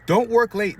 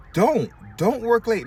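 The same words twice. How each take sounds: First: Loud, high-pitched punch on don't work late; emphatic advice. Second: Drawn-out, slower, high and loud on Don't; slow emphatic repeat. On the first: Barber urging fellow barbers, loud emphatic warning. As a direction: call it out like a warning. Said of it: "urging barbers not to work late". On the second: Barber repeating his warning to other barbers, slow and emphatic. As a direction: lean into each word, slowly. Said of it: "repeats the advice, slower". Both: Real, not acted.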